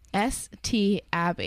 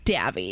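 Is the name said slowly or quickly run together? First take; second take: slowly; quickly. First: The letters and name are said slowly and separately. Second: The letters and name are said quickly, run together.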